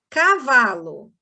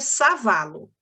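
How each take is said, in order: First: The word begins with a K sound. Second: The word begins with an S sound. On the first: The speaker calls it right. "K é o som do, do, do K mesmo, não é som de S" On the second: The speaker calls it wrong. "ficaria savalo. Primeiro, ficaria errado"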